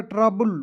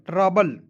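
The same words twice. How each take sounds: First: ट्रबल ending in "bul" with an oo; wrong ending. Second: ट्रबल ending in an unrounded "bəl"; correct ending. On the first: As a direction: say ट्रबल as "tra-BOOL". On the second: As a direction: say ट्रबल slowly as "TRA-bəl". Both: Shown as a demonstration. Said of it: "बुल नहीं पढ़ेंगे".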